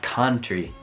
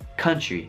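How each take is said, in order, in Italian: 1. La prima vocale è una 'a' italiana aperta. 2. La prima vocale è uno schwa breve e neutro. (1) "Spesso si può dire country con la A. Voi dite così, ma non dovreste dire così" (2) "dovete dire con lo schwa, non la A. Quindi paese dovrebbe essere pronunciato così"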